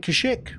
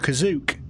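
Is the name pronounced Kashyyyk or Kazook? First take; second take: Kashyyyk; Kazook. First: The name is pronounced as Kashyyyk. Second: The name is pronounced as Kazook.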